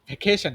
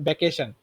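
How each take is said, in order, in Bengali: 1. v ধ্বনি দিয়ে শুরু, ঠোঁট দাঁতের ওপর। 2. b ধ্বনি দিয়ে শুরু, দুই ঠোঁট একসাথে।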